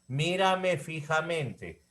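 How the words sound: The voice falls at the end.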